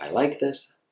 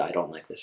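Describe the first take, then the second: First: "I like this" with a higher, rising lift; lifted, upbeat "I like this"; approving tone. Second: "I don't like this" lower, falling on "don't"; disapproving tone. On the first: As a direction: say "I like this" brightly, pleased. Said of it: "So we talked about". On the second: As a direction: drop the pitch on "I don't like this". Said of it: "We'll talk about the". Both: Shown as a demonstration.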